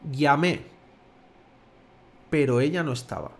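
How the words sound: There is a short pause after "llamé". "te ha dejado una pequeña pausa"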